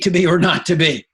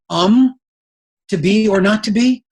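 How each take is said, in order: First: It starts confidently without hesitation. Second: It starts hesitantly with an um.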